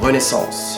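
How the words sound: It is said with a French pronunciation.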